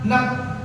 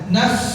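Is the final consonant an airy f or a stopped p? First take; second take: stopped p; airy f. First: The final consonant is a closed, stopped p. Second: The final consonant is an airy, blown f. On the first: The speaker calls it wrong. "nap salah" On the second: The speaker calls it right. "naf seperti orang ni niup"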